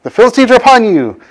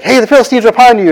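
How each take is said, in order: First: High, half-shouted warning; mock alarm call. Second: High, fast alarm, half-shouted; mock alarm call. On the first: Delilah raises the alarm again. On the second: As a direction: call out the warning quickly. Delilah raises the alarm.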